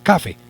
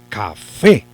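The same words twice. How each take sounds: First: The stress is on the first syllable. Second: The stress is on the last syllable. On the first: The speaker calls it wrong. "uno no dice me encanta el café" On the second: The speaker calls it right. "sino el café"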